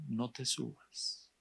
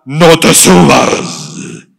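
First: Soft, slow little voice, very quiet; a gentle inner voice warning him softly; small voice. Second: Mock thunderous voice, very loud and very slow; booming mock voice. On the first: Acted. The still small voice warns the brother, hushed and slow. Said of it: "escuchó una vocecita que le dijo". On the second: Shown as a demonstration. Preacher mocks a thundering God voice, drawn-out shout. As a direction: boom it out like a voice from the sky, to show how God does not speak. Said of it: "no es que Dios habla".

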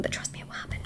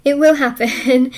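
First: Soft, hushed whisper; whispered promise. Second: "will" landed firm and louder, slow and deliberate; emphatic promise. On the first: Reader confiding to viewers, hushed whisper. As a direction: breathe it out like a confidential vow. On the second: Reader assuring viewers, slow emphatic "will". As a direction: plant each word of "It will happen" slowly. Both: Real, not acted.

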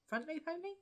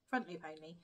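First: "front loop only?" asked with a high questioning rise; unsure of "front loop only?", pitched up. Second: Said in the usual way. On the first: Acted. To viewers, unsure of the stitch name, she asks with a high rise.

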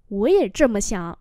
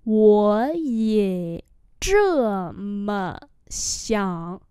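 First: Said in the usual way. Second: Very slow, syllable by syllable; slow model reading. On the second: Shown as a demonstration. Teacher repeating a phrase for learners, very slowly. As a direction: hold out each syllable.

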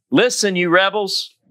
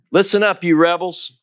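First: Raised-pitch scolding, lightly voiced; stern rebuke. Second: Higher, pressing the rebuke harder; stronger stern rebuke. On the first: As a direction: scold the crowd sharply. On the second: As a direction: lean into the scolding, half-acted. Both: A narrator's reading. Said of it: "and said".

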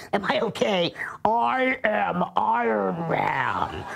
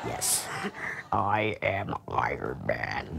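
First: Whispered very slowly for effect; dramatic whisper. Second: Much lower, slow, softer grand hero line; movie hero voice. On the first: Telling his worried buddy on the phone, slow hushed whisper. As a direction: hush it out like a secret hero reveal. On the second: Answering the crowd as a hero, much lower, slow and grand. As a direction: deliver it like the film's epic closing line. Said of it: "Something Aussie in my head". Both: Pretend.

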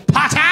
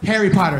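First: Put-on Jamaican-accented "Potter?" called out high and loud; Jamaican kids' taunt. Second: Said in the usual way. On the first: Jamaican kids teasing the kid with glasses, Jamaican-accented call. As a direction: shout "Potter?" across the yard Jamaican style. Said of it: "they would just go". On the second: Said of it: "thank you".

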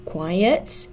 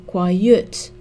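First: Said in the usual way. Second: "quiet" with weight on the final syllable; stress on final syllable. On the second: Shown as a demonstration. Teacher showing learners where the stress falls, "quiet" stressed on its end. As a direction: lean on the second syllable of "quiet". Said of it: "stress in quiet is on final syllable".

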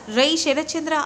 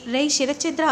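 First: Second angrier call, pitched higher; calling again, higher. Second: Angry call across the yard; calling out loudly. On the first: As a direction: call him out louder. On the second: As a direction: shout his name in anger. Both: A narrator's reading. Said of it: "గట్టిగా పిలవగానే".

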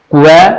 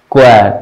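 First: क्वायर as "ku-wer"; correct pronunciation. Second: क्वायर as "ko-er"; wrong pronunciation. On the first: Teacher alternating takes, "ku-we" glide in क्वायर. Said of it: "सही sound". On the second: Teacher alternating takes, "ko-er" for क्वायर. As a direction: turn the glide in क्वायर into "o". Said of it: "गलत sound". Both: Shown as a demonstration.

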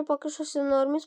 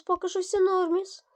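First: Said in the usual way. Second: Higher, teasing поки що все норміс; cheeky singsong норміс; playful repeat. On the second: Real, not acted. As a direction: toss it off lightly, higher. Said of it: "higher playful repeat".

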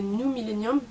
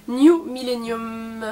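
First: Said in the usual way. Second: Slow, louder palette name, last syllable held; drawn out. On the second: Shown as a demonstration. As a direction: stretch out the name slowly. (nom étiré, très lentement)

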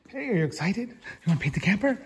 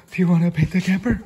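First: Higher, fast, bouncy questions to the dog; excited pet talk. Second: A sharp gasp, then a louder, fast, rising question; gasping excited pet talk. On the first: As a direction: hype the dog up about painting. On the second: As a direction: gasp and ask the dog with big excitement. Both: Acted.

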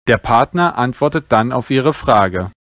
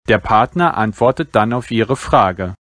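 No difference in how they are said.

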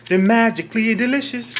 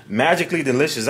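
First: High, sing-song TV commercial voice; playful imitation of a breakfast cereal jingle line. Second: Said in the usual way. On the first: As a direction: chirp it like a cartoon cereal ad. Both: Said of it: "I just heard".

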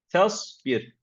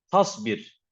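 First: "Tasbir" with a thin t and a thick s; careful, correct "Tasbir". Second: "Tasbir" with the t wrongly thickened; "Tasbir" as the common mistake, thick t; wrong thick reading. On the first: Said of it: "Bakın T'yi yine ince okuyorum. Sad'ı kalın okuyorum". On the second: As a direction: say "Tasbir" the wrong way, t made heavy. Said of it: "tasbir kelimesini şöyle okunabiliyor". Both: Shown as a demonstration.

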